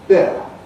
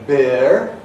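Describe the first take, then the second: First: A gliding diphthong with no r at all. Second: A gliding diphthong followed by a sounded r. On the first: This is the modern form. "And then we dropped the R, giving us bear" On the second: This is a later form. "the E developed into a diphthong air in this position"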